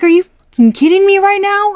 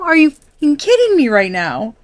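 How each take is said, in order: First: Much higher, much louder exasperated yell; furious outburst. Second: Higher, louder, still exasperated; angry repeat. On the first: Reader voicing a fed-up viewer at the suitor, furious. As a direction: blow up in disbelief. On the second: Reader voicing a fed-up viewer, repeating it angrily. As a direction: say it again, still fuming. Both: Retold or imitated. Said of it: "you are pissed".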